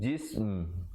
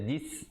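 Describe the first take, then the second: First: The word ends with lips closed on m. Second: The word ends without the closing m sound. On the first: The speaker calls it right. "kita tutup mulut menyempurnakan bunyi mim" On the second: The speaker calls it wrong. "jika kita baca jis, tak betul"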